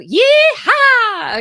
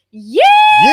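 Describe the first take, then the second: First: A high, loud yee-haw falling away; cowboy yee-haw. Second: A very high, loud shouted yee-haw; shouting along with the class as a cowboy; full cowboy yee-haw. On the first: Shown as a demonstration. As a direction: whoop like a cowboy lassoing a horse. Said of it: "we're gonna be like a cowboy". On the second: Real, not acted. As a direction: yell it like a cowboy swinging the lasso. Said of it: "Get that lasso going".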